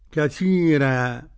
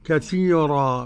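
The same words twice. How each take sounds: First: The r sound is thin and light. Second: The r sound is full and heavy. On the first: "فيها الترقيق لورش" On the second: "بالتفخيم"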